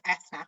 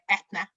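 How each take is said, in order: First: The middle consonant is a th sound. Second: The middle consonant is a plain t sound. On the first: The name is said the intended way. The speaker calls it right. "instead of Ethna" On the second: The name is said the mistaken way. The speaker calls it wrong. "I get Etna instead of Ethna"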